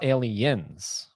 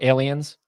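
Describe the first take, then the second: First: The final s sound is drawn out and stressed. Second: The ending is said plainly, without extra emphasis. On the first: The speaker calls it right. "they always like really enunciate the end" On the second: The speaker calls it wrong. "You can't just go aliens"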